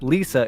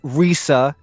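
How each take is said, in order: First: It starts with an English L sound. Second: It starts with an English R sound. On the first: "it's not Lisa" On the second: "it's not Risa"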